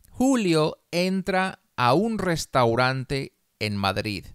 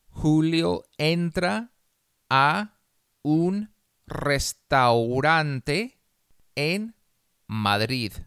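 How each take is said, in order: First: The sentence is read slowly. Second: The sentence is read very slowly. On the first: "Una vez despacio" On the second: "una vez muy despacio"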